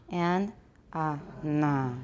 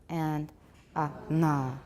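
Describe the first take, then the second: No difference in how they are said.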